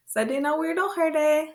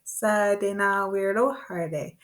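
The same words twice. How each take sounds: First: "Sa de na weirdo herde" quick, high and lilting; quick natural version. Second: "Sa de na weirdo herde" slow and even; slow practice version. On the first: Teacher showing real use with a child, quick high call. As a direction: run "Sa de na weirdo herde" together in one high sweep. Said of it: "That's how it would be. very quickly". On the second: Teacher practising a long word with learners, slow measured chant. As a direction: hold a steady beat on "Sa de na weirdo herde". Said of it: "let's break it down a little bit". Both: Shown as a demonstration.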